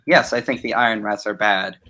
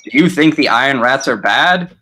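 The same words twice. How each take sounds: First: Falling, prompted reply; level, obedient response; dutiful answer. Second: Rising, suggestive question; leading question. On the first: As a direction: answer as if led to it. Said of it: "like saying". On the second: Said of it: "I would be doing leading questions". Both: Shown as a demonstration.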